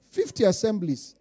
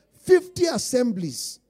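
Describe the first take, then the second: First: Said in the usual way. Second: Each word leaned on, slow and louder; Fifty said slow and heavy, assemblies drawn out; slow emphatic repeat. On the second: Shown as a demonstration. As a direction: drive home Fifty assemblies slowly.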